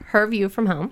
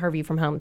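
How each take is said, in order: First: It is said slowly and deliberately. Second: It is said at normal conversational speed.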